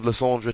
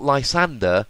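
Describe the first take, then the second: First: The name ends with a French 're' sound. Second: The name ends with an English 'er' sound. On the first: The speaker calls it right. "be a bit respectful to French" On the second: The speaker calls it wrong. "That's why it's not Lysander. Lysander would be E R"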